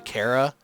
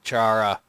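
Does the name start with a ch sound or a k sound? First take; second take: k; ch. First: The name starts with a k sound. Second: The name starts with a ch sound. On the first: The speaker calls it right. "I know it's actually Kara, like character" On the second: The speaker calls it wrong. "but I pronounce it Chara"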